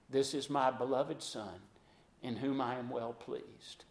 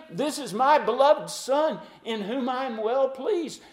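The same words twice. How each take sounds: First: Soft, low, reverent quote; hushed voice of God. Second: High, loud, ringing declaration; God the Father, booming over the Jordan; proclaimed voice of God. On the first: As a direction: murmur it with awe. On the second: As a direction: announce it from heaven. God's voice quoted, proclaimed. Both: Acted.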